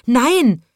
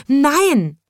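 First: Loud high refusal; shouting. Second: Even higher, loud panicked no; shouting. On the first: Sweep refuses the frog, loud high shout. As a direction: cry out no in fright. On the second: Sweep refuses the frog again, higher shout. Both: A narrator's reading. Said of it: "schrie er".

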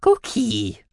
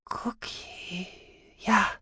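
First: High little creature voice; high-pitched cartoon animal; mouse-beaver voice. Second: Faint, high whisper; frail, airy recognition; breathed. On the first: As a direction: prompt helpfully in a squeaky voice. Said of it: "half der Mausbiber". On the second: Acted. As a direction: breathe it out weakly. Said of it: "hauchte Sahira".

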